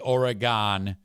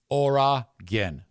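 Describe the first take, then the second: First: The last syllable sounds like 'gone'. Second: The last syllable sounds like 'gin'. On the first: The speaker calls it wrong. "that is a problem" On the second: The speaker calls it right. "Three syllables, ends with gin"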